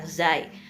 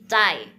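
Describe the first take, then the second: First: It starts with a z sound. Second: It starts with a ts sound. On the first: The speaker calls it wrong. "bukan ini bukan zai" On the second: The speaker calls it right. "tapi cai ya"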